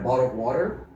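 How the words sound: It is said with an American accent.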